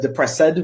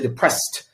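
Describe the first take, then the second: First: An extra vowel is sounded before the final D. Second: No vowel is sounded before the final D. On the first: The speaker calls it wrong. "You said depressed, which is incorrect" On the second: The speaker calls it right. "Between S and D, there's no E"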